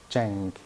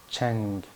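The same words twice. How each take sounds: Both takes have the same delivery.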